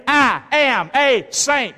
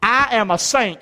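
First: "I am a saint" drawn out slow, "I" stressed; slow emphatic declaration. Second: Said in the usual way. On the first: Shown as a demonstration. Preacher leading the congregation, slow proclamation. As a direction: proclaim it slowly, word by word. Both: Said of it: "Can you say that with me?".

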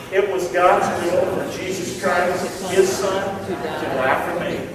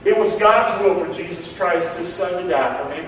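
First: Slowed, spaced out for the congregation to repeat; measured responsive line; slow call and response. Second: Said in the usual way. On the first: Shown as a demonstration. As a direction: lead the room through it word by word. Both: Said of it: "Please say that with me".

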